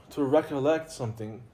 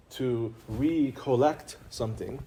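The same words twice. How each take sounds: First: Said in the usual way. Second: "recollect" drawn out slowly, each syllable weighted, rising at the end; slow emphasis on recollect. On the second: Shown as a demonstration. Teacher repeats the key word slowly for students. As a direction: lean into "recollect" and take your time.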